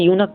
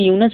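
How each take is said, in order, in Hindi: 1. शब्द का अंत k ध्वनि से होता है। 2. शब्द का अंत s ध्वनि से होता है। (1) "इसको यूनक पढ़िएगा" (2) "इसको यूनस नहीं पढ़िएगा"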